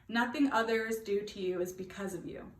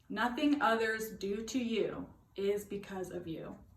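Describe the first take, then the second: First: It is said at a normal speed. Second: It is said slowly and deliberately.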